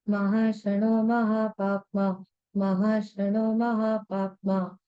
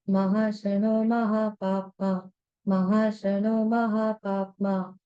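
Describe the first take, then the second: Both takes have the same delivery.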